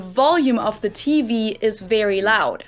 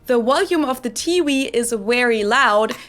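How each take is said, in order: First: The v sounds are pronounced as English v. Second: The v sounds are pronounced like w sounds. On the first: The speaker calls it right. "instead of the" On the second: The speaker calls it wrong. "Germans will pronounce both W's and V's as the English W"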